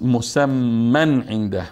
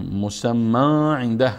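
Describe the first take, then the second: First: The n sound is clearly heard before the ayn. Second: The n sound merges into the following ayn. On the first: The speaker calls it right. "پس مسمن عنده میخوانیم" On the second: The speaker calls it wrong. "خوانده نمیشه"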